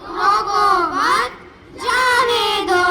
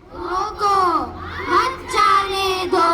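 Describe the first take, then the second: First: The pause comes right after 'mat'. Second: The pause comes right after 'roko'.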